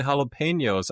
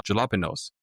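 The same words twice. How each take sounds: First: Jalapenos said "hah-lah-pain-yose"; pronounced with H. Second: Jalapenos said "juh-lah-puh-nose"; pronounced with J. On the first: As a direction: open jalapenos with an H, Spanish style. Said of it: "How is that pronounced like an H?". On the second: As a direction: read jalapenos as spelt, with an English J. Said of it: "How is a J from the jalapenos". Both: Retold or imitated.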